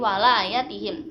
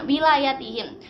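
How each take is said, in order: First: The first syllable has the vowel a. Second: The first syllable has the vowel i. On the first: It means help or protection. "membacanya dengan fathah, wawunya difathahkan" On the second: It means leadership. "bikasril wawi membacanya itu dengan uh, wawunya dikasrohkan"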